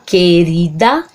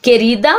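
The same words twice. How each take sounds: First: "querida" slowly split into que-ri-da; syllable by syllable. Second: Said in the usual way. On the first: Shown as a demonstration. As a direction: sound out "querida" in three separate syllables. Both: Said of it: "separa do mesmo modo que fala".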